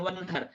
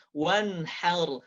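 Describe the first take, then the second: First: "wan har" quick with the mistaken H; wrong H. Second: "Wan har" measured, with a careful breathed H; correct H. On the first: Teacher showing learners what to avoid, careless "wan har". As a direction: toss off "wan har" without care for the H. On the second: Teacher giving the corrected take, careful H in "Wan har". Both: Shown as a demonstration. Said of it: "bukan wan har".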